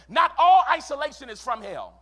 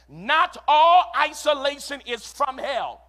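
First: The sentence is spoken at a normal pace. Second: The sentence is spoken at a slower pace.

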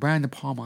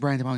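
First: The name ends with a slight Italian-sounding accent. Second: The name is said plainly, without a put-on accent.

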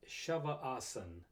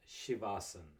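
First: The first vowel sounds like 'ah'. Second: The first vowel sounds like 'ee'. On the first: The speaker calls it right. "let's make sure we pronounce the name correctly. It's Shavasan" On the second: The speaker calls it wrong. "not Shivasan"

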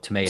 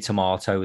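First: It is said in a North American accent. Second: It is said in the speaker's home accent. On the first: "they say tomato" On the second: "we say tomato"

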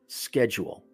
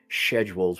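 First: It is said in an American accent. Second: It is said in a British accent.

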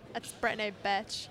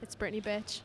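First: It is said in a Valley girl voice. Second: It is said in her plain voice.

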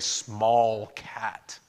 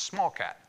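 First: Both words are pronounced fully and separately. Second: The two words run together into one word. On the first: "you don't pronounce the whole thing out. You don't say small cat" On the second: "it just sort of kind of blends together now"

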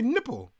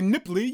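First: The word ends with an 'ul' sound. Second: The word ends with an 'ee' sound. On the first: The speaker calls it right. "You say Nipple" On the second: The speaker calls it wrong. "You don't say Nipply"

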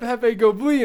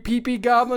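First: The name's vowels sound like 'peh peh'. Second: The name's vowels sound like 'pee pee'. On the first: The speaker calls it right. "no, it's Pepe Goblin" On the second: The speaker calls it wrong. "mispronouncing his name and calling him Pee Pee Goblin"

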